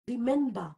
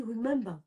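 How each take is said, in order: First: "remember" said as "ree-MEN-ba"; French-accented "remember" ending in an open "ba"; mispronounced "remember". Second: "remember" with a rounded English r, "wri-MEM-ber"; corrected "remember". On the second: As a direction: model "remember" with a soft, swallowed ending. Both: Shown as a demonstration. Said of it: "on dit remember".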